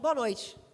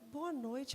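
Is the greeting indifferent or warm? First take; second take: indifferent; warm. First: It is said mechanically, out of obligation. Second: It is said warmly and sincerely.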